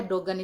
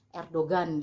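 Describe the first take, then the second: First: "Erdogan" said as Er-do-an; correct silent G. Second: "Erdogan" with a hard, audible g; Indonesian reading. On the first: Vlogger correcting the Indonesian reading, silent g in "Erdogan". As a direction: drop the g in "Erdogan", gliding from o to an. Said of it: "Sebenarnya Erdogan itu kita bacanya". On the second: Vlogger showing how Indonesians read it, hard g in "Erdogan". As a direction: say "Erdogan" as Er-do-gan, g fully sounded. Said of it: "kalau di Indonesia kan kita bacanya biasanya". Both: Shown as a demonstration.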